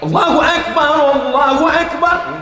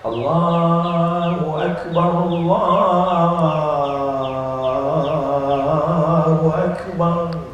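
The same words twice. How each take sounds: First: It is called out loudly and forcefully. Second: It is said softly and gently.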